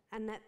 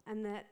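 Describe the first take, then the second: No difference in how they are said.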